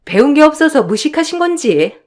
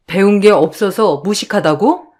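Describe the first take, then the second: First: Higher-pitched, needling sister-in-law; mock her as if musing aloud; snide insult. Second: Affronted echo. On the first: Younger sister-in-law belittles the eldest, snide and higher-pitched. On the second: Acted. Eldest challenges younger sister-in-law's insult, affronted questioning. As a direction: throw the insult back, rising at the end.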